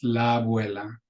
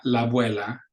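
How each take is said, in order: First: La abuela joined into one long a; la abuela as one word; linked. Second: La abuela with the vowels split apart; choppy la abuela; wrong way. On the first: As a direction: link la abuela smoothly. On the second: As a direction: separate la and abuela. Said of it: "So not". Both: Shown as a demonstration.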